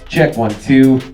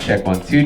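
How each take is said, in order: First: The voice has an even, flat tone. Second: The voice has strong high-end presence. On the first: "we have a flat E Q" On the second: "You'll hear a lot more presence in my voice"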